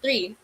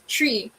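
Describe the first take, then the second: First: The word begins with a th sound. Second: The word begins with a plain t sound. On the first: "In an American accent, it's pronounced three" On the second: "some Filipinos tend to pronounce it as tree instead of three"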